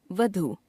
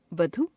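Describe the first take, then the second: First: Said in the usual way. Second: वधु with a short final u, "vadhu"; wrong pronunciation. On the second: Shown as a demonstration. Teacher showing a u-vowel error, वधु ending on short u. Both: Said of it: "अशुद्ध".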